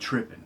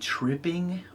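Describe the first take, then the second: First: It is said in a casual, relaxed accent. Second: It is said in a careful, standard-sounding accent. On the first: "I said tripping because that's how I talk"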